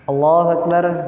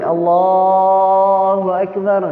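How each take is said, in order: First: The phrase is said short and quick. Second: The phrase is drawn out long.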